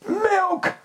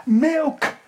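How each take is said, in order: First: Even higher wail on Milk; mock baby cry. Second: Mock baby cry. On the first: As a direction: push Milk up into a thin falling wail. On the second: Baby crying for milk.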